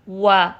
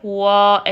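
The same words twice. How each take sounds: First: The vowel after the rounded lips sounds light and thin. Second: The vowel after the rounded lips sounds full and heavy. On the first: The speaker calls it right. "ज़बर है वो बारीक पड़ी जाए" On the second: The speaker calls it wrong. "ऐसे नहीं"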